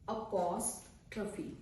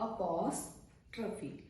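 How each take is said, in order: No difference in how they are said.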